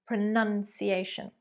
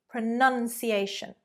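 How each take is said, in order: No difference in how they are said.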